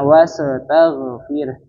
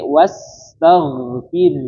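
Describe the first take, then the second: First: An extra short e vowel breaks the consonants. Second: The consonants join with no extra vowel. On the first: The speaker calls it wrong. "bukan wastaghfir" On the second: The speaker calls it right. "ketika sukun tidak ada e-nya"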